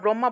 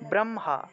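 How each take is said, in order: First: The h-m cluster is said the everyday Bengali way. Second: The h-m cluster is said the Sanskrit way. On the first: The speaker calls it wrong. "আমরা ব্রহ্মা বলে থাকি ... আসলে ব্রহ্মা হবে না" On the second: The speaker calls it right. "এটা হবে ব্রহ্মা"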